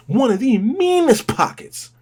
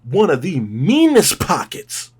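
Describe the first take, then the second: First: Much higher, slow, hyped repeat; excited repeat. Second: Said in the usual way. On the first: Real, not acted. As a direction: shout the praise up high.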